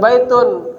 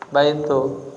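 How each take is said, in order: First: The word ends with an added n sound. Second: The word ends on a vowel without n. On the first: The word stands alone, not attached to a following word. The speaker calls it wrong. "Jangan dibaca baitun" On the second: The word is attached to the following word. The speaker calls it right. "jadi jangan ditanwin baitu"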